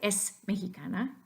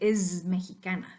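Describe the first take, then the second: First: The word es ends with a voiceless s sound. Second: The word es ends with a voiced z sound. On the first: The speaker calls it wrong. "you don't want to say es mexicana" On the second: The speaker calls it right. "you want to say es mexicana"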